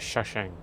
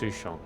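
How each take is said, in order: First: The name is said as Shashang. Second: The name is said as Sushong. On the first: The speaker calls it wrong. "I pronounced it Shashang" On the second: The speaker calls it right. "It's Sushong"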